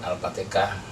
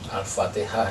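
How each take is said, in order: First: It is said with a heavy Javanese accent. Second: It is said with standard Arabic pronunciation.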